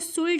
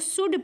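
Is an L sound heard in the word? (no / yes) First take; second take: yes; no. First: The word is said with an L sound. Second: The word is said without an L sound. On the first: The speaker calls it wrong. "इसको शुल्ड नहीं पढ़ना" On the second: The speaker calls it right. "इसको शुड पढ़ते हैं"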